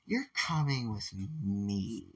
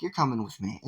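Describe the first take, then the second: First: Slow, soft and deliberate. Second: Said in the usual way. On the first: Retold or imitated. Momo pulls Izuku from his chair with a slow, firm command. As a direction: say it slowly, with no room to argue.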